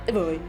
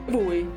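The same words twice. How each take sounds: No difference in how they are said.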